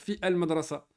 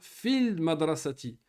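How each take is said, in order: First: The article's vowel is said as a separate syllable. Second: The article runs straight on from 'fi' as 'fil'. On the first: The speaker calls it wrong. "Tu peux pas dire fi el madrasa. Ça, c'est quand tu sais pas lire" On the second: The speaker calls it right. "Tu vas faire la liaison"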